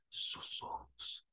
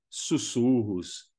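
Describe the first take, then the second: First: Breathy whispered word, almost silent. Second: Said in the usual way. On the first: Shown as a demonstration. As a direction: whisper "sussurros" like a noise on the mic.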